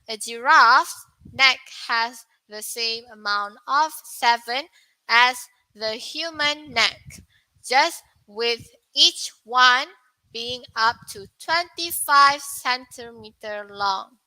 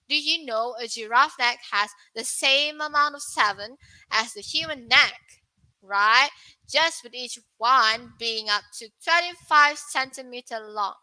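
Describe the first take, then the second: First: It sounds like text being read aloud. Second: It sounds like casual, spontaneous talk to a friend.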